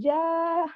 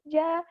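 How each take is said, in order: First: The vowel is held for well over two beats. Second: The vowel is held for about two beats. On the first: The speaker calls it wrong. "kan itu lebih dari dua harakat" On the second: The speaker calls it right. "harusnya seperti itu"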